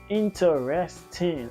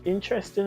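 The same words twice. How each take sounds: First: Each syllable is said clearly and separately. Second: The syllables are run together quickly. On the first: The speaker calls it right. "I got to break up my syllables" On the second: The speaker calls it wrong. "Not interesting, no"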